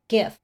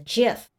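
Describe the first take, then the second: First: It starts with a hard G sound. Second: It starts with a soft J sound. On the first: "now that's how I say it" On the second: "That's peanut butter to me"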